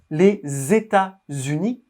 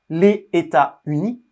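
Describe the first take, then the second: First: The s of les links into the next word. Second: The s of les is not linked onward. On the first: The speaker calls it right. "on fait la liaison" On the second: The speaker calls it wrong. "on ne dit pas"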